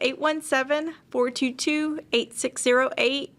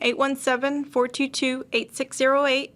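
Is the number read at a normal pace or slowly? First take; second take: slowly; normal. First: The number is read more slowly. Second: The number is read at a normal pace.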